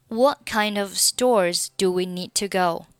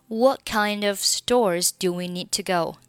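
The two takes are said the same way.

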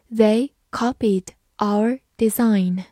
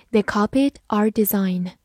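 First: "They copied our design" slowly, each word set apart; slow reading. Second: Said in the usual way. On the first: Shown as a demonstration. Teacher reads the sentence for learners, slowly. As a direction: read word by word, slowly, with gaps. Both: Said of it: "好，慢慢来读".

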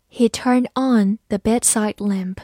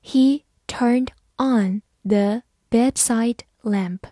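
First: Said in the usual way. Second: Slow, word-by-word model reading; teacher's slow read-along pace. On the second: Shown as a demonstration. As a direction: leave a gap after each word. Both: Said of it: "慢读一遍".

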